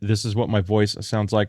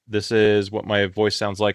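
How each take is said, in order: First: The voice is processed with a low-pitch broadcast setting. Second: The voice is processed with a clear low-pitch setting. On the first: "on broadcast low pitch" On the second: "on clarity low pitch"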